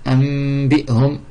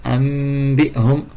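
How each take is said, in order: Both takes have the same delivery.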